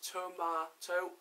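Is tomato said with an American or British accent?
British. It is said with a British accent. The speaker calls it right. "Britain, how it's properly pronounced"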